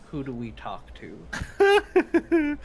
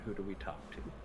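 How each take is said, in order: First: It is said in a stern, firm tone. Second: It is said softly and quietly.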